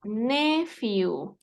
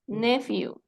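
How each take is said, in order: First: Nephew drawn out as NE-fiu; slow pronunciation demo. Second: Said in the usual way. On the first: Shown as a demonstration. Teacher showing how it is pronounced, slow model. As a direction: say nephew slowly, stretching both syllables. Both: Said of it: "Se pronuncia".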